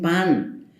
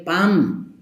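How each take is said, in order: First: Said in the usual way. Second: "pam" slow, ending on a closed m; local pronunciation. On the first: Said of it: "no dicen pan". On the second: Shown as a demonstration. Showing how people here say bread, slowly, with a final m. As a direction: stretch "pam", lips shut at the end. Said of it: "la gente dice".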